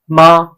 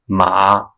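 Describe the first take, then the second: First: The pitch stays high and level. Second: The pitch dips low, then rises. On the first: It means mother. "with the first sound, first tone means mother" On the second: It means horse. "with the third tone means house"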